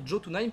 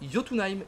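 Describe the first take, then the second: First: The name begins with a J sound. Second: The name begins with a Y sound. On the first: The speaker calls it wrong. "ne se prononcent pas comme des J mais comme des Y en fait. C'est à dire qu'au lieu de dire Jotunheim" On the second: The speaker calls it right. "on dit Jotunheim"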